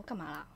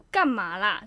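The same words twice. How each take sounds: First: Low, soft, puzzled 干嘛啦 tossed over the shoulder; mildly puzzled, murmured 干嘛啦; quiet puzzled question. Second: A touch sharper, firmer 干嘛啦; mildly irritated snap of 干嘛啦; fiercer. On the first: Friend turning round the first time, soft and puzzled. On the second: Friend turning round again, now mildly annoyed. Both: Retold or imitated. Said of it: "就已经比较凶".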